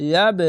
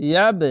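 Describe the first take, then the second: Both takes have the same delivery.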